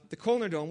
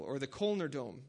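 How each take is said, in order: First: Said in the usual way. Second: Kölner Dom in his own rough German, Kölner with a rounded ö; German pronunciation. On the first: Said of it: "with my horrible accent". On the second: Shown as a demonstration. Pastor telling the congregation the local name, German pronunciation. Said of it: "as you would say there".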